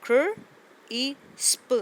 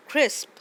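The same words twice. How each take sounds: First: "क्र ई स्प" split into separate sounds, louder and higher; sounded out in parts. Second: "क्रिस्प" said as one smooth word, louder and higher; blended whole word. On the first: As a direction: break "क्र ई स्प" into its parts, slowly and clearly. ("क्र ई स्प" को अलग-अलग टुकड़ों में बोलें) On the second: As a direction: join "क्रिस्प" together in one go. ("क्रिस्प" को एक साथ जोड़कर बोलें) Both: Shown as a demonstration. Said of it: "start में भी कॉन्सोनेंट ब्लेंड है और एंड पे भी है".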